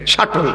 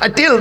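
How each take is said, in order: First: The second syllable has a short 'o' vowel. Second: The second syllable has an 'e' vowel. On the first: The speaker calls it right. "শাটল, শাটেল না" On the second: The speaker calls it wrong. "আমরা ওই রকম বলি আর কি"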